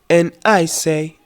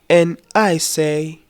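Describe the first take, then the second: No difference in how they are said.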